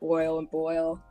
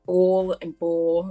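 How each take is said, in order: First: The words are said in a standard accent. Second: The words are said in a local regional accent.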